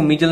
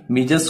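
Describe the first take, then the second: First: "मीजल" ending on the l, no s; final s dropped. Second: Said in the usual way. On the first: Shown as a demonstration. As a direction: say "मीजल" without its plural-like s. ("मीजल", आख़िर में स के बिना) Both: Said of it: "मीजल नहीं बोलेंगे".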